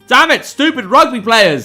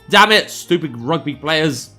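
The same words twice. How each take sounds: First: It is yelled loudly. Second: It is mumbled quietly under the breath.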